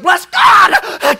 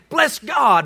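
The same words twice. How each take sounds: First: It is screamed loudly like a preacher. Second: It is said in a calm, normal voice.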